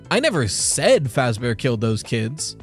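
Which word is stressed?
said. The stress is on the word said.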